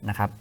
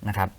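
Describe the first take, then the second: No difference in how they are said.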